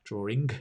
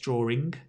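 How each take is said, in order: First: The word ends with an audible hard g sound. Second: The word ends with an audible hard g sound.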